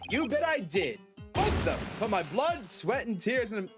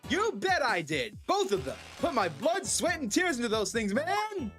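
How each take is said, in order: First: It is said in a plainer voice. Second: It is said in a put-on character voice.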